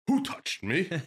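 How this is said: It is asked in an annoyed tone.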